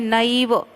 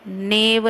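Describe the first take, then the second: First: The first vowel is the diphthong ai. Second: The first vowel is a plain e. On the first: The speaker calls it right. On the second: The speaker calls it wrong.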